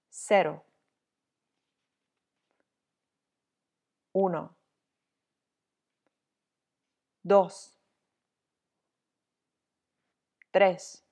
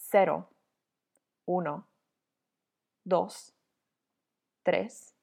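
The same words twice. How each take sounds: First: The numbers are said at a slow speed. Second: The numbers are said at a normal speed. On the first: "Now more slowly" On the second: "one time at regular pace"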